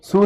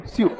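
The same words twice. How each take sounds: First: "सू" as plain "soo", no y-glide; wrong pronunciation. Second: "स्यू" with a y-glide, "syoo"; crisp teacher's "स्यू", y before the oo; corrected pronunciation. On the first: Retold or imitated. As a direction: mimic the mistaken "सू", an s straight into oo. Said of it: "सू नहीं रे". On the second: Shown as a demonstration. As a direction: model "स्यू" short, s-y-oo in one syllable. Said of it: "सू नहीं रे, स्यू".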